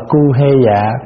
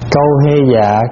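First: The first syllable is said with the vowel 'u'. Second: The first syllable is said with the vowel 'au'. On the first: This is the reading found in some places. "có chỗ đọc là cu hê dạ" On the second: The reading is deliberately altered to avoid an unpleasant word. "Cho nên chúng ta đọc trại cái chữ đó đi"

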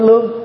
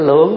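First: The word has a level tone without the drop. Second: The word has a low, heavy, glottalized tone. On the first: The speaker calls it wrong. "chứ không phải lương" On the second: The speaker calls it right. "cái này là lượng"

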